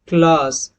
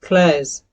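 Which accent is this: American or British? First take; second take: British; American. First: It is said in a British accent. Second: It is said in an American accent. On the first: "ये British accent का है" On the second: "अगर आप इसको American accent में pronounce करेंगे"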